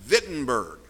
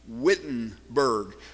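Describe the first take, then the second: First: It begins with a V sound. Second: It begins with an English W sound. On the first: "they pronounce a W as though it were a V" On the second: "We would look at it in English and call it Wittenberg"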